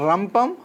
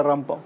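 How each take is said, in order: First: రంపం with a strong trilled opening r; old hard R. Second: Said in the usual way. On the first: Shown as a demonstration. Teacher showing the old letter, రంపం with hard r. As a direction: roll the r hard at the start of రంపం. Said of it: "తేడా ఇది". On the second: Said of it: "మామూలుగా రంపం".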